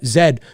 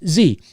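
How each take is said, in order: First: The letter is said as zed, non-American style. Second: The letter is said as zee, American style.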